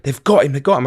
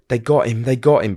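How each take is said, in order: First: Mildly raised, urgent imitation of a screech; higher, insistent retelling of screeching; retold screeching. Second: Said in the usual way. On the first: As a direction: echo a panicked mum's cry, held back. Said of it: "it was screeching, just like". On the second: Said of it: "but it was screeching".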